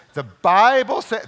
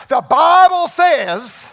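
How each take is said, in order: First: Said in the usual way. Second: Put-on southern preacher accent, much higher, louder and slow, laughing through it; Billy Graham southern accent. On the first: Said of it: "this is Billy Graham". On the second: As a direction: boom out "the Bible says" in a southern preacher accent, slow and loud. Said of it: "I have my little southern accent".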